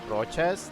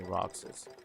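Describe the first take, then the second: First: The middle consonant is sounded as ch. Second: The middle consonant is sounded as ks. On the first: It becomes a last name. The speaker calls it wrong. "change the pronunciation to like like Rochas" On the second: It is the character's actual name. The speaker calls it right. "We just say Roxas"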